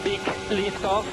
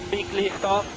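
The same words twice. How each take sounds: The two takes are said the same way.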